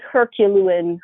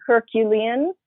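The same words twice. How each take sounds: First: "Herculean" tripped over, middle syllables muddled to her-kyu-loo-un; stumbled pronunciation. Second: "Herculean" said cleanly as her-kyu-lee-un, rising at the end; retry "Herculean" as her-kyu-lee-un with a questioning lift; corrected pronunciation. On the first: Journalist stumbling over her own description, "Herculean" muddled as her-kyu-loo-un. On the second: Journalist correcting her slip, "Herculean" as her-kyu-lee-un, rising questioningly. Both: Real, not acted. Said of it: "I can't even talk really".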